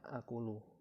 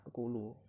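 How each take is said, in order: First: It opens with a long merged vowel. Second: It opens with a second glottal stop. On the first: The speaker calls it right. "yang seharusnya akulu" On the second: The speaker calls it wrong. "kesalahan dalam contoh yang kedua ini terletak pada kata akulu"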